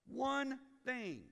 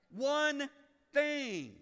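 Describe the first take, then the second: First: "One" stressed, falling. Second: "One" and "thing" hammered out louder and higher; loud emphatic. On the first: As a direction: lean on "One thing". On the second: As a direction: hit "One thing" hard, word by word. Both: Shown as a demonstration.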